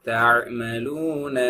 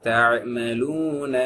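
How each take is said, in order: Both takes have the same delivery.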